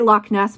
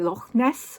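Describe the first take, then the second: First: It is said with an American accent. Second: It is said with a Scottish accent.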